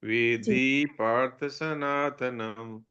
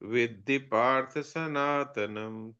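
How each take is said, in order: First: The final vowel of vidhi is drawn out long. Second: The final vowel of vidhi stays short. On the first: The speaker calls it wrong. "विधि पर थोड़ा ज्यादा रुक गए तो ये छोटी विधि की जगह बड़ी विधि हो गई" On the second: The speaker calls it right. "ऐसा बोलना है ... तो ये छोटी की छोटी रह जाएगी"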